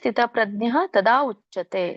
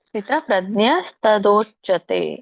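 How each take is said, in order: First: The last two words are said separately. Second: The last two words are merged into one. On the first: "ಬಿಡಿಸಿ ಹೇಳೋದಾದ್ರೆ" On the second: "ಕೂಡಿ ಹೇಳೋದಾದ್ರೆ"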